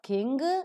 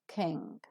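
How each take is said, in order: First: The word ends with an audible hard g. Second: The word ends with a nasal ng, no g. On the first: The speaker calls it wrong. "it is not king" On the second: The speaker calls it right. "we don't pronounce G sound"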